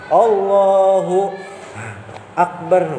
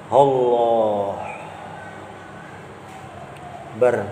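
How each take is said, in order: First: A vowel is sounded at the end of Allah. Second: No vowel is sounded at the end of Allah. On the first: The speaker calls it right. "Allahu Akbar bilang kok kada apa-apa" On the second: The speaker calls it wrong. "Hilang tuh kayak ini nah"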